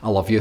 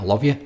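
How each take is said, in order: First: It is said casually, with no feeling. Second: It is said warmly, with deep feeling.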